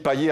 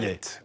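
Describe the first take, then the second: First: The name ends in a vowel, no final t. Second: The name ends with an audible t sound. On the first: The speaker calls it wrong. "quand j'ai dit paillet, attention" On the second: The speaker calls it right. "À la Réunion, ça se dit paillette"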